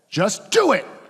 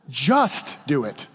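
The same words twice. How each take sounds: First: The stress is on the word do. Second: The stress is on the word just.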